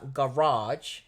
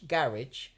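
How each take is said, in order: First: It is said with an American pronunciation. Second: It is said with a British pronunciation. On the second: "which Britons are more likely to pronounce as"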